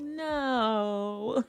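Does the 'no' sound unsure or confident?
unsure. The no sounds hesitant and questioning.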